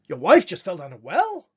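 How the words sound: It is said as a surprised question.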